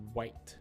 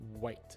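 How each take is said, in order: First: It begins with a strong, rounded W sound. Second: The same.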